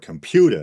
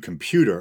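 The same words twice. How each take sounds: First: It is said in a Boston accent. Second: It is said in a standard accent.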